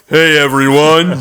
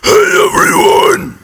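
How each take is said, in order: First: A lowered voice like Joe from Family Guy. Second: A lowered voice with gravelly fry noise added.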